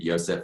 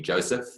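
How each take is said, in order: First: The name begins with a 'y' sound. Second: The name begins with a 'j' sound. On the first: The speaker calls it wrong. "There's nothing Yosef about it" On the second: The speaker calls it right. "we pronounce the name of our company Joseph"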